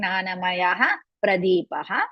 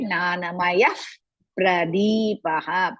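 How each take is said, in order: First: A full 'ha' syllable follows 'maya'. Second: No full 'ha' syllable follows 'maya'. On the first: This is how it is read. "While reading, we will say" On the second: This is how it is recited. "when we are reciting, so you are supposed to say"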